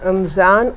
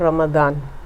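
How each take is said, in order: First: The middle consonant is a 'z' sound. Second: The middle consonant is a 'd' sound. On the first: It is the Urdu pronunciation. "Urdu में कह रहे हैं ... तो वो रमज़ान है" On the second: It is the Arabic pronunciation. "लफ्ज़ अरबी समझकर ... अरबी में दुआद है"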